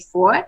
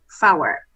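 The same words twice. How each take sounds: First: It is said as one syllable, four. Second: It is said as two syllables, fow-er. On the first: This is the everyday habit. The speaker calls it wrong. "most pilots and most air traffic controllers say four" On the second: This is the official radio form. The speaker calls it right. "the correct phraseology should be four"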